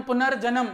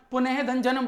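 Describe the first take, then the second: First: पुनर्जन्म said as one smooth word with no breaks; joined word. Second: पुनः धन जन्म said as three separate pieces: पुनः, then धन, then जन्म; split into parts. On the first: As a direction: run पुनर्जन्म together as a single flowing word. (पुनर्जन्म को एक ही जुड़े हुए शब्द की तरह, बिना रुके) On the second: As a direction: break पुनः धन जन्म into its parts, pausing between पुनः, धन and जन्म. (पुनः धन जन्म को तीन अलग टुकड़ों में, हर टुकड़े के बीच रुककर) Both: Shown as a demonstration.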